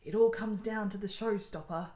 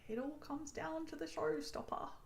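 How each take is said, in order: First: It is said in the speaker's natural accent. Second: It is said in a put-on British accent.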